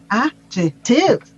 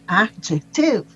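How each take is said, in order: First: The stress is on the third syllable. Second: The same.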